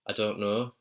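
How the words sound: It is said in a Yorkshire accent. "So he's saying I don't know"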